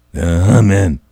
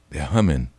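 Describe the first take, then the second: First: "humming" said much louder, falling at the end; loud repeat. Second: Said in the usual way. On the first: Real, not acted. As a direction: punch "humming" hard. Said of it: "repetition punched loud". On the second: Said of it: "repetition at normal level".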